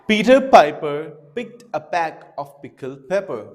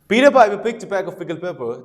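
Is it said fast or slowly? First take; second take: slowly; fast. First: It is said slowly. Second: It is said fast.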